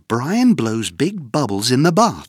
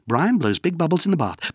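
First: It is said faster than before. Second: It is said very fast.

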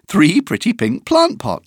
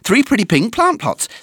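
First: The sentence is said at a fast speed. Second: The sentence is said at a very fast speed. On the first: "plus vite!" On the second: "Encore plus vite!"

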